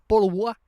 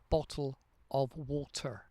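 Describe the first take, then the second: First: The t sounds are dropped and the words run together. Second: Slower, with every sound clearly articulated. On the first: The speaker calls it wrong. "the British are known for saying" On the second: The speaker calls it right. "pronunciate it slower"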